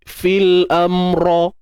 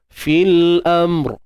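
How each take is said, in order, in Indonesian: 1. Ada bunyi vokal tambahan setelah r terakhir. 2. R terakhir berakhir tanpa vokal tambahan. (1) "kita tak adalah sebut fil amro" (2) "angkat pangkal lidah"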